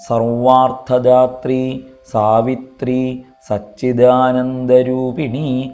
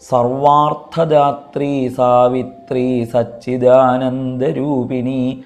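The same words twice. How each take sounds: First: The words are separated by pauses. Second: The words run together without pauses. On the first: "എന്നിങ്ങനെ നിർത്തി നിർത്തി ചൊല്ലണോ" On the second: "എന്നിങ്ങനെ ഒന്നിച്ച് ചൊല്ലിയാൽ മതിയോ"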